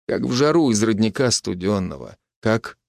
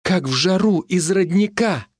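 First: Said in the usual way. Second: Higher, slow, wondering repeat of the line; high, slowed, thrilled quote; excited recollection. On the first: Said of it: "Nikitich's tender line". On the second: A narrator's reading. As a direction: recall grandpa's words with rising excitement. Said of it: "Дед бабке так же говорил".

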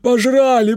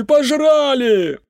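First: Put-on high, loud drunken cry of "Пожрали"; a panicked drunk yelling through the door; drunk bawl. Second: Very high, slow, stretched shout of "пожрали"; a drunk man howling his loss through the door; drawn-out drunk wail. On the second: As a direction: drag "пожрали" out into a long falling howl. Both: A narrator's reading. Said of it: "сиплый мужской голос протянул".

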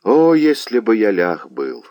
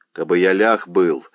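First: Anguished, drawn-out exclamation; a lover's lament, stretching the opening "О"; pained cry. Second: Exclaiming. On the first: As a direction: cry it out in heartache, a little louder. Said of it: "пронзённый болью". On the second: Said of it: "воскликнул Багун". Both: A narrator's reading.

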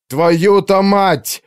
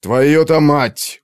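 First: Very slow, much higher, louder roared curse; yelled curse. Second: Very slow, louder growl of a curse. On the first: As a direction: roar the curse in despair. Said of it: "заорал Артур". (Артур в отчаянии орёт ругательство) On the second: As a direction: growl it through anger. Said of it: "прорычал он". (Артур рычит ругательство) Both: A narrator's reading.

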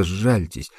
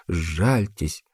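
First: Begging softly, near tears; a first desperate sжальтесь, pleading; tearful plea. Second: Softer, breaking сжальтесь as tears come; a second, quieter сжальтесь on the edge of sobs; fading tearful plea. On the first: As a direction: plead for mercy. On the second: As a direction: let the repeated сжальтесь dissolve into crying. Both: A narrator's reading. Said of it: "Она заплакала".

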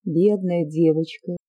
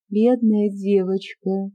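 First: Slow, gentle pitying tone; tender. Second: A hint of tender pity. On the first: Acted. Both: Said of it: "ещё более нежным голосом".

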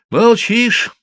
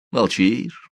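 First: Молчишь thrown out higher and louder; stressed taunt. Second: Said in the usual way. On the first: Acted. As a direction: hit Молчишь as a sneering jab. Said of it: "продолжал Филин". («Молчишь» — резко, с насмешкой, выше и громче)

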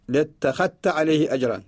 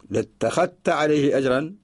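No difference in how they are said.

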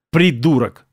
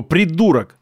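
First: Understated grumbled insult; grumbling. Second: Understated shouted insult; mild angry yell. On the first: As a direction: grumble it under a sore mood. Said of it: "проворчал Осколков". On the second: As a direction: hurl the insult without full volume. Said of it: "орал Осколков". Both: A narrator's reading.

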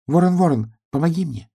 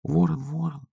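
First: High pleading piglet; piglet's plea to star. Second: Soft, high hushed call; whispered call. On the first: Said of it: "нашёл в небе свою звезду и сказал". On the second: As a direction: call him softly, half asleep. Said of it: "прошептал поросёнок". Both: A narrator's reading.

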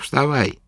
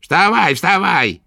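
First: Said in the usual way. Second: High, louder impatient order; irritated repeat. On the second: A narrator's reading. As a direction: snap at him to get up. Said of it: "раздражённо повторила ведьма".

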